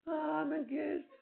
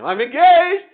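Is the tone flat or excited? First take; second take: flat; excited. First: It is said flatly, with little energy. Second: It is said excitedly, with lots of energy.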